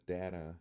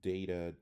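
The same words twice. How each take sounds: First: "data" with first A as in "cat"; short A. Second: "Data" with first A as "ay", DAY-tuh; long A. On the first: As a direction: say "data" like DAT-uh. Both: Shown as a demonstration. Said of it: "are the same thing".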